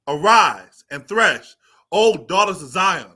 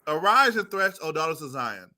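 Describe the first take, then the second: First: It is declaimed dramatically like a street-corner preacher. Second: It is read plainly in an ordinary speaking voice. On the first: The speaker calls it wrong. "that's that street corner" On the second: The speaker calls it right. "read it normal so we can understand"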